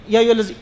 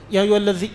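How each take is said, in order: First: الذی said "allazi", z for th; dhal as za. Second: الذی with a soft voiced th; correct dhal. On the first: Teacher repeating the faulty recitation, dhal as za. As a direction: buzz a z in الذی. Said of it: "زال ایک مرتبہ پڑھ". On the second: Teacher repeating the recitation for students, correct dhal. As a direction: say الذی with tongue between teeth. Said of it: "آپ یوں پڑھ لیتے". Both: Shown as a demonstration.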